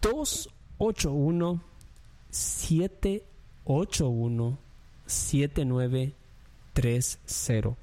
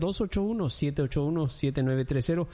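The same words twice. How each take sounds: First: The number is said slowly. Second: The number is said quickly.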